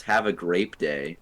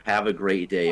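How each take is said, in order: First: "grape" said slowly with a clear p; GRAPE for great. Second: Said in the usual way. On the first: Shown as a demonstration. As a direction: say "grape", closing on a p. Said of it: "it was". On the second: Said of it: "instead of".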